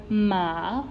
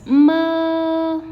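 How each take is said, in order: First: "ma" gliding upward to its end; rising tone. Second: "ma" sustained high and perfectly level; flat tone. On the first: Teacher introducing the second tone, rising tone. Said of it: "it's a rising tone". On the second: Teacher reading the word for learners, flat tone. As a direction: prolong "ma" on one raised, steady pitch. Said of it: "we have to sustain a little bit". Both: Shown as a demonstration.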